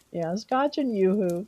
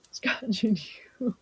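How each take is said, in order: First: Said in the usual way. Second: Scotch and yoo-hoo breathed through a giggle; laughing whisper. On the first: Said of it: "reads chat suggestion". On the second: Real, not acted. To chat, repeating the drink idea in a giggly whisper. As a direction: whisper it, barely holding back laughter. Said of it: "repeats whispering, laughing".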